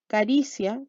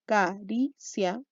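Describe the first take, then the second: First: Said in the usual way. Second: "Caricia" slowly as ca-ri-cia, a pause after each syllable; teacher dividing "Caricia" syllable by syllable; split into syllables. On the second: Shown as a demonstration. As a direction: break "Caricia" into three separate beats, ca, ri, cia. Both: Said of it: "dividámoslo".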